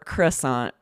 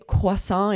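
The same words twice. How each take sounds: First: It is said with an American English pronunciation. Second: It is said with a French pronunciation. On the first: "with like an American accent" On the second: "in French"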